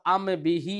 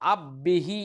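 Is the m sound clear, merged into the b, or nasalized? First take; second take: clear; merged. First: The m is pronounced fully and clearly. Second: The m merges completely into the b. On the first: "ऐसे भी नहीं पढ़ेंगे" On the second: "इदगाम भी नहीं करेंगे"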